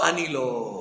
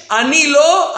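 First: Very soft, low repeat of the quote; hushed echo. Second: Higher imitation of a cry of denial; retold cry. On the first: Retold or imitated. Teacher echoing pupil's denial, hushed and low. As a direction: drop right down, almost to nothing. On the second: Teacher quoting pupil's protest back, retold cry. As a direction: raise the pitch, quoting a protest. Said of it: "וגם צעקת כעונש".

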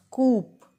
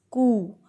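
First: "coop" with the final P sounded; common mispronunciation. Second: "coo" with no final consonant; correct silent P. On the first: Teacher showing the common mistake, coop with P. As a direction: say "coop" to rhyme with loop. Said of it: "We pronounce it as". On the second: Teacher correcting coup for learners, coo without P. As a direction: say "coo", ending on a long oo. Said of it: "but no". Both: Shown as a demonstration.

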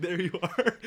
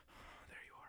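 First: Laughing through the line. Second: Breathy weak whisper; faking frailty. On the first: Retold or imitated. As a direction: break up while saying it. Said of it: "I was like". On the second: Pretend. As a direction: whisper like you're too sick. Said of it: "pretending to be sick".

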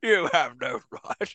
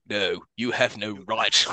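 First: Slow, hammed-up grave line; solemn objection. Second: Slow, low solemn line; solemn objection. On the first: Host mocking the doctor's objection, slow and grave. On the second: Retold or imitated. Doctor objecting to the mercy kill, slow and grave. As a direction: drag it out gravely. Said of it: "He just goes".

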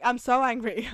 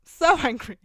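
First: Mock angry. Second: Laughing, louder So angry; laughing outburst. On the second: Ranting about the ugly teacher, laughing and loud. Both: Real, not acted.

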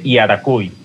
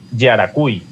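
First: Slow "Iaracuy" opening on an "ee" vowel; vowel I start. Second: "Yaracuy" opening on a hard consonant Y, like "ye". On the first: Asking friends the correct way, "Iaracuy" with vowel I. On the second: Asking friends the correct way, "Yaracuy" with consonant Y. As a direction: start "Yaracuy" with a firm Y consonant. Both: Shown as a demonstration. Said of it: "cómo será la pronunciación correcta".

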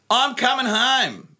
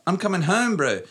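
First: Bad New Zealand accent impression; a rough Kiwi accent, pitched up. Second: Exaggerated Kiwi accent, higher; hammy New Zealand accent quote. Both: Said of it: "my New Zealand accent is terrible".

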